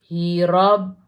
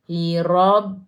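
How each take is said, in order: Both takes have the same delivery.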